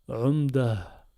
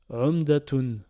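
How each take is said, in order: First: The word ends without the -tun ending. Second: The word ends with a full -atun ending. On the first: The word is the last one of a verse. "on va le prononcer umda" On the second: The word is read in the middle of a passage. "Ça nous donne umdatun"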